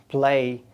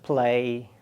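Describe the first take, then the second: The two takes are said the same way.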